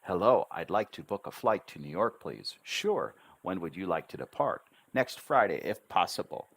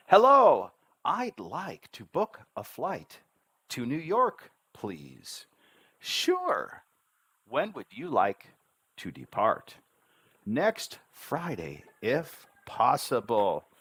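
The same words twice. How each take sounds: First: Quick demo dialogue with clear syllables; fast but rhythmic. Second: Very slow, lifted, sing-out demo dialogue; slow syllable steps. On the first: Teacher demonstrating a flight booking to students, fast with steady rhythm. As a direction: say it briskly, keeping the rhythm. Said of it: "I wouldn't speak any faster than that". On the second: Teacher modelling a flight booking to learners, slow and deliberate. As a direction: step slowly through each syllable, pitched up. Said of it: "I'll say it one more time". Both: Shown as a demonstration.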